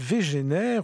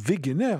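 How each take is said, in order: First: The name is pronounced the French way. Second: The name is pronounced the German way.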